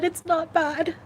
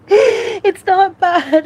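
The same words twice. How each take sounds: First: Steadier but still high and teary; tearful. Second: Slow, loud, high sob-choked words; louder crying take, voice breaking; sobbing. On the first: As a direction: pull yourself together mid-cry. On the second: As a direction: burst into tears on it. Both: Real, not acted. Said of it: "without crying".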